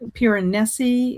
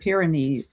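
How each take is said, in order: First: The word ends with a 'nay-see' sound. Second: The word ends with a 'neez' sound. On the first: "I think it's Piranesi" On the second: "I've heard Pyrenees"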